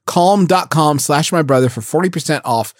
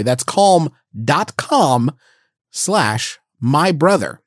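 First: Said in the usual way. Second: Slow, spelled-out read; slow deliberate read. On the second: Shown as a demonstration. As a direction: spell the address out for someone who can't spell it.

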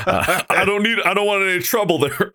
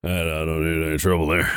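First: High-pitched repeat of the line; odd high delivery. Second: Low, softened, hurried line; odd low delivery. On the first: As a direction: lift the voice high, half-joking. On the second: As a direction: drop the voice low and rush it out. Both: Real, not acted. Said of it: "I don't know why I said it like that".

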